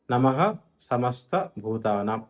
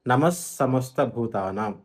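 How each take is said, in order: First: "నమః" said slowly as nama-ha, apart from "సమస్త"; విసర్గం విడదీసి. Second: "నమః సమస్త" joined slowly as namas-samasta; విసర్గం పొల్లు సా. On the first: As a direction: sound a full ha at the end of "నమః". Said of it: "నమఃలో మా తర్వాత విసర్గం ఉంది". ("నమః"లో విసర్గాన్ని "హ"గా విడిగా పలకాలి) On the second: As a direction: turn the visarga of "నమః" into a long s into "సమస్త", no ha. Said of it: "పొల్లు సా అవుతుంది". ("నమః సమస్త"ను "నమస్సమస్త"గా కలిపి పలకాలి) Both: Shown as a demonstration.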